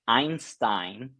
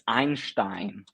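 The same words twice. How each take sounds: First: It is said with an English pronunciation. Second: It is said with a German pronunciation. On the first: "let me pronounce it in an English way" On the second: "all the Germans in front of the laptops will be like, it's Einstein"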